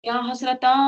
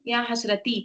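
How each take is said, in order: First: या हसरता ending in a long open aa of regret; या हसरता sounded as a lament on the aa; regretful aa ending. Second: या हसरती ending on a bright, spread-lip ee; या हसरती with a light smiling ee. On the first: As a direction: let या हसरता open into a sighing aa. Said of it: "तुम कैसे बोलोगे?". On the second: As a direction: say या हसरती with lips spread wide on the ee, no grief. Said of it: "ई, तो आपके चेहरे पे smile आती". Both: Shown as a demonstration.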